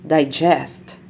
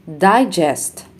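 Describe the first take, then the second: First: DiGEST, stressed on the second syllable; light di, strong GEST in digest; verb stress. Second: DIgest, stressed on the first syllable; noun stress. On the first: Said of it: "verbs are stressed on the second syllable". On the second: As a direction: punch DI in Digest, then fall. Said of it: "nouns are stressed on the first syllable". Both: Shown as a demonstration.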